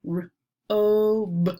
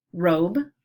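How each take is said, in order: First: "R-o-b" with a long, held oh; roller-coaster word. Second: Said in the usual way. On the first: Shown as a demonstration. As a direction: separate r, stretch the oh, close on b. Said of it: "putting an emphasis on the middle". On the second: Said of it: "some long vowel sounds".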